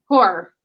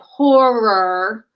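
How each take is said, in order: First: The word is slurred together loosely. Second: The word is carefully articulated sound by sound. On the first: This is the everyday way it is said. "we slur that word. Horror is how I would say" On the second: This is a deliberate effort to say it properly. "phonetically sat here and thought to pronounce it"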